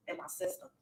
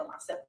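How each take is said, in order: First: Whispered echo. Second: Said in the usual way. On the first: Real, not acted. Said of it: "whispered echo of line". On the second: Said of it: "said, then echoed".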